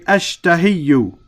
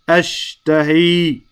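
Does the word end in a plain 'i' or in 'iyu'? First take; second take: iyu; plain i. First: The word ends with an added 'yu' sound. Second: The word ends on a plain 'i' sound. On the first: The speaker calls it wrong. "it's difficult to say ashtahiyu" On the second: The speaker calls it right. "So we say ashtahi"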